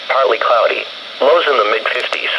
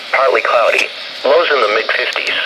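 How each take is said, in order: Both takes have the same delivery.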